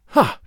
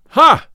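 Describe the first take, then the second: First: Short, contained exclamation; said to himself. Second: Loud, high-pitched exclamation; great loud voice. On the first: Robin watches the fight unseen, exclaiming to himself. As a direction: exclaim privately, without a big shout. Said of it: "quoth Robin to himself". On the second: Little John reacts to the tanner's back talk, great loud voice. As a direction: burst out with a big loud voice. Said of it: "in a great loud voice". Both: A narrator's reading.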